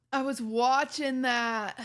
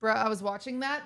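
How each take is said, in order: First: Slow, drawn-out whiny complaint; mock whiny viewer. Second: Said in the usual way. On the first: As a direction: drag it out like a sulking fan. Mock whining viewer quote.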